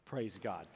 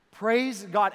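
First: Said in the usual way. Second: Much louder, higher ringing praise; preacher calling out with joy. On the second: Real, not acted. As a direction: shout it out to the crowd. Rousing praise to crowd.

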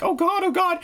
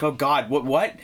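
First: High, panicky maid voice; frightened maid. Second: Said in the usual way. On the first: Retold or imitated. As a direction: gasp it out high like the scared maid. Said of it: "the maid's like". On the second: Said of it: "and you're like".

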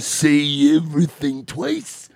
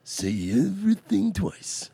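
First: Twice stretched out with a rise, slow; "twice" drawn long and rising; stress on twice. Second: "everything" hit high, falling at the end, slow; "everything" pitched up high and stressed. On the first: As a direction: lean on "twice" and lift it at the end. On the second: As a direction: punch "everything" and let the line drop. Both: Shown as a demonstration.

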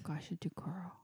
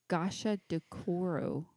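First: "Gashadokoro" breathed in an eerie whisper. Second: "Gashadokoro" sounded out slowly, syllable by syllable; careful phonetic attempt. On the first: Pretend. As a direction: whisper "Gashadokoro" like a ghost story. Creepy whispered repeat of name. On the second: Shown as a demonstration. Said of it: "I'm gonna phonetically say it".

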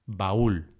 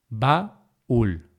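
First: Said in the usual way. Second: "Baúl" split as ba, úl; syllable by syllable. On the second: Shown as a demonstration. Teacher showing stressed closed vowel hiato, syllable by syllable. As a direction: pause inside "Baúl" before úl. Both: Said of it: "para marcar el hiato".

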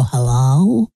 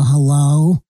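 First: A slightly lower, drawn-out radio-host hello; radio caller voice. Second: Radio caller voice. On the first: Calling the sports talk show, mock radio hello. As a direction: greet the sports show like an old radio pro. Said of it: "I call him up and go". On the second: Calling two Missouri hosts, teasing radio hello. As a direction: pipe up like a radio regular. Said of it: "I called them and go". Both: Retold or imitated.

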